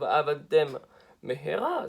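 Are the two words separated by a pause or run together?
pause. A short pause separates the two words. Two separate words are heard. The speaker calls it right. "ça veut dire quelque chose"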